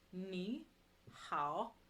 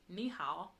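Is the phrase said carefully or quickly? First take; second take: carefully; quickly. First: Said carefully with full, distinct tones. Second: Said quickly with lighter, less intense tones.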